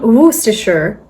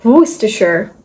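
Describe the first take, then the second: First: It is said in an American accent. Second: It is said in an American accent.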